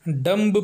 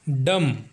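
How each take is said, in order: First: The final b sound is pronounced. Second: The final b sound is silent. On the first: The speaker calls it wrong. "कई लोग इसे डम्ब पढ़ते हैं, जो कि गलत है" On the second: The speaker calls it right. "इसको डम पढ़ा जाना चाहिए"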